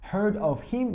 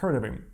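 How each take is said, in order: First: The h of him is pronounced. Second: The h of him is dropped.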